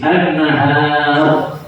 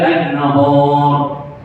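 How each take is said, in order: First: The vowel after the n is thin. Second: The vowel after the n is thick. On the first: The speaker calls it right. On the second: The speaker calls it wrong.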